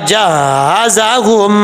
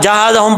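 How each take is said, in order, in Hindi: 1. 'h' की आवाज़ खिंची हुई और दोहरी है। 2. 'h' की आवाज़ छोटी है, दोहरी नहीं।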